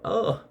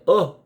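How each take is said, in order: First: High, hushed gasp of oh; a jump scare oh, breathed; horror movie oh. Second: Sudden scared gasp of oh; startled oh. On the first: Shown as a demonstration. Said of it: "you say when you're watching the scary movie". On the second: Retold or imitated. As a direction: jump at a fright. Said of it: "It was the kind of, "Oh".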